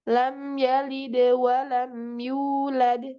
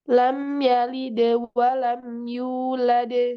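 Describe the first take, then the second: First: The final syllable fades out quietly. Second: The final syllable stays strong and clear. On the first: The speaker calls it wrong. "Contohnya yang mengecil begini" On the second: The speaker calls it right. "Tapi dia harus lebih nampak"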